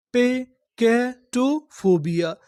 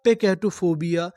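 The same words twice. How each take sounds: First: "पेकैटोफोबिया" very slowly, with gaps between the chunks; syllable by syllable. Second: Said in the usual way. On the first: Shown as a demonstration. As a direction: sound out "पेकैटोफोबिया" piece by piece. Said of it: "तोड़-तोड़ के पढ़ते हैं". ("पेकैटोफोबिया" को बहुत धीरे, टुकड़ों में तोड़कर पढ़ें) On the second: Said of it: "पूरी मीनिंग क्या बनी".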